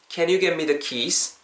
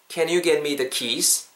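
No difference in how they are said.

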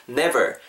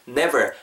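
The two takes are said the same way.

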